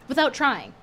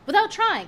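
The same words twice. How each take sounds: First: Said in the usual way. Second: "Without trying" higher and louder, stress on "Without"; emphatic repeat. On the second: Shown as a demonstration. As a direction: punch "Without" up high, falling on "trying".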